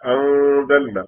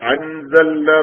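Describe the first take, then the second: First: The n is only a hum through the nose. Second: The n is pronounced clearly with the tongue. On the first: The speaker calls it right. "നാവ് മുകളിൽ തട്ടിക്കാതെ മൂക്കിലൂടെയുള്ള മുഴക്കം മാത്രം വന്നാൽ മതി" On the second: The speaker calls it wrong. "അത് വ്യക്തമായി പറയരുത്. അൻസൽന എന്ന് പറയരുത്"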